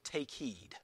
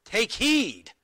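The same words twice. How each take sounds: First: Said in the usual way. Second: "Take heed" punched high and loud, stress on "heed"; emphatic. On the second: Shown as a demonstration. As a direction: hit "heed" hard, falling firmly. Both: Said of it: "it's there for emphasis".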